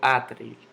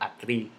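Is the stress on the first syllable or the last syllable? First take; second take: first syllable; last syllable. First: The stress falls on the first syllable. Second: The stress falls on the last syllable. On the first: The speaker calls it wrong. "Yo no digo atril" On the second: The speaker calls it right. "yo digo atril"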